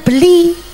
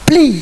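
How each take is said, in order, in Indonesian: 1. Terdengar vokal di antara b dan l. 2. Bunyi b langsung menyambung ke l. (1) "mboten beli" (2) "tulisane b nun saya langsung l jur i"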